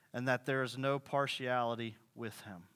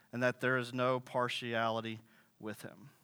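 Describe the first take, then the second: The two takes are said the same way.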